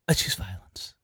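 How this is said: It is said in a shaky, trembling voice. The speaker is scared but committed. "she was, like, trembling about it"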